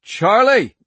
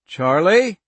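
First: Loud, desperate yell of her name; urgent shout. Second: Calling out loudly into the dark; urgent call. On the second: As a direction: call her name, urgent and rising. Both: A narrator's reading. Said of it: "His voice cracked and urgent".

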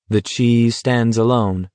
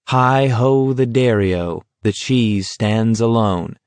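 First: Slow, spoken with a dazed edge; crazily. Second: Sung, slow singsong nursery rhyme, dazed. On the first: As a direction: say it like a giddy thought. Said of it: "Garrity thought crazily". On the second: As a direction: sing it like a half-mad child. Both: Acted.

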